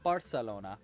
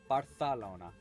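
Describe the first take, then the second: First: The c is said as a plain s sound. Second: The c is said with a lisp, like th. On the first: The speaker calls it wrong. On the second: The speaker calls it right.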